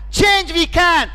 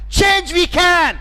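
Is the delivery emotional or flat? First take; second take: emotional; emotional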